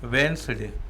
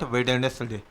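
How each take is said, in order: First: It is said in two syllables, wens-day. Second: It is said in three syllables, wed-nes-day. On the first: The speaker calls it right. "इसका pronunciation जो है वो वेंसडे है" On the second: The speaker calls it wrong. "It is not वेडनेसडे"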